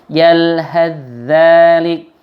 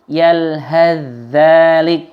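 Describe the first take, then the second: The two takes are said the same way.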